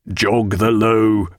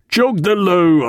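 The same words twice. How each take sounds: First: First cry. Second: Higher, slow, drawn-out shouted order; louder cry. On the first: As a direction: call the order out slowly, holding back some force. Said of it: "cried Mister Roke". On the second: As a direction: repeat the order forcefully, stretching each word. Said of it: "and then louder". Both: A narrator's reading.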